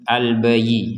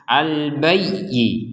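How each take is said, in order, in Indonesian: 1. Bunyi y-nya pendek dan tidak ditekan. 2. Bunyi y-nya ditekan dan ditahan lama. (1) "Kalau tidak ditekan" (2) "kalau ditekan"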